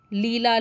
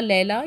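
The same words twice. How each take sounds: First: "Leela" said LEE-la; long-ee pronunciation. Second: "Leela" said LAY-la; alternative "ay" pronunciation. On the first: Teacher offering students one way to say the name, "Leela" as LEE-la. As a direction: stretch the first vowel of "Leela" as "ee". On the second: Teacher offering students another way to say the name, "Leela" as LAY-la. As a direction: give "Leela" an "ay" first vowel. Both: Shown as a demonstration. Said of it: "you can pronounce proper noun the way you want".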